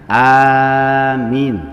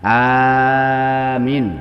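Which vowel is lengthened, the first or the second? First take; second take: first; first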